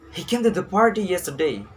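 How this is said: The stress is on "party".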